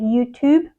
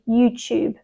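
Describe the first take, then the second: First: The word is said in an American accent. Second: The word is said in a British accent. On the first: "I think they say YouTube" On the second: "we say YouTube"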